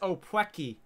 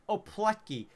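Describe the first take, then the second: First: The middle consonant is a W sound. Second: The middle consonant is an L sound. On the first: The speaker calls it right. "that letter has to be pronounced as a W" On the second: The speaker calls it wrong. "I thought it was called opletki"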